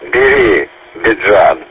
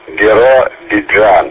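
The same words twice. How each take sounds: First: The name begins with the sounds 'beri'. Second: The name begins with the sounds 'biro'. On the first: The speaker calls it wrong. "А я думал" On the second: The speaker calls it right. "Я понял теперь"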